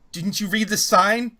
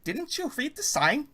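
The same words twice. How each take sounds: First: A hint of a nervous woman; slow, higher, louder questioning voice; lightly voiced nervous woman. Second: Put-on high, slow nervous woman with an accent; slow high-pitched nervous question. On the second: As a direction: pitch it way up, anxious and foreign. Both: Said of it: "You hear a nervous woman's voice".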